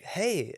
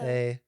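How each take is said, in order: First: It is said brightly, with excitement. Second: It is said flatly, without excitement.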